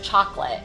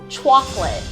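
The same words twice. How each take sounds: First: The word is said with the usual pronunciation. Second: The word is said with a toddler's mispronunciation. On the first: The speaker calls it right. "instead of chocolate" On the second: The speaker calls it wrong. "she would say, like, chocolate"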